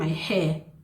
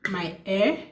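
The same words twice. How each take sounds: First: The h sound at the start is pronounced. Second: The h sound at the start is dropped. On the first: The speaker calls it right. "instead of saying" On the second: The speaker calls it wrong. "you were not actually pronouncing the the H sound"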